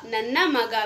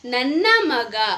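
First: Said in the usual way. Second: Slow careful model. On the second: Shown as a demonstration. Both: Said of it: "तो इसको हम कन्नड़ा में बोलेंगे".

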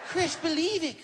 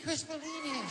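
First: [name] insisting. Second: High, much softer [name] with a laugh; [name] softly. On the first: [name] telling starstruck Chris, high and emphatic. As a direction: push it up high and firm. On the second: [name] repeating to Chris, high and hushed. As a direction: let it fall away to a giggly hush. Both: Retold or imitated. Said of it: "Michael was getting mad".

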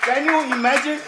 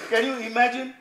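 First: Loud, high "Can you imagine?"; emphatic exclamation. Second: Said in the usual way. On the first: Shown as a demonstration.

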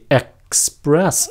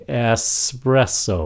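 First: "express" slowly, cut after ek, then spress; breath break. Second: "Espresso" slowly, s flowing straight into presso; unbroken s. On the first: Teacher demonstrating express, breath cut after ek. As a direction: stop the air mid "express": ek, spress. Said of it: "có nghe ngắt hơi không". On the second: Teacher demonstrating espresso, slow with unbroken s. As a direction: let the s in "Espresso" run without a break. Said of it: "không có ngắt hơi". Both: Shown as a demonstration.

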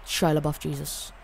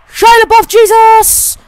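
First: Said in the usual way. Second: High, full-volume yell; loud, high hyped-up holler; battle-cry shout. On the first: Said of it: "gonna be the name of this title". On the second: Pretend. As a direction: scream it like a war cry. Yells his made-up battle name.

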